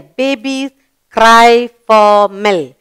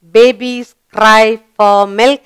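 First: Slow, clear model reading; slow read-aloud. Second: Slow reading with a rise at the end; slow read-aloud. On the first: Teacher modelling the completed sentence, slowly. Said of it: "we put it there". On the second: Teacher rereading the sentence for children, slowly. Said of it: "Is cry an action word". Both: Shown as a demonstration.

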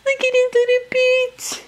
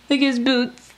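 First: Put-on much higher, louder cutesy baby talk; cooing baby talk. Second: Said in the usual way. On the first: Mom showing her doll's boots to viewers, high baby talk. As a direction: coo over the tiny boots like a baby.

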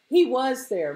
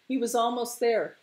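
First: WAS punched high and loud; stress on WAS. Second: Said in the usual way. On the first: A narrator's reading. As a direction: lean hard on WAS. Narrator stresses was on arrival.

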